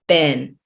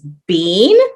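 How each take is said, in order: First: The word is said with an American pronunciation. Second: The word is said with a British pronunciation. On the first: "In the States, we would say been" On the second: "In the U K is been"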